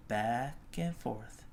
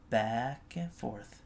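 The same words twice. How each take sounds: The two takes are said the same way.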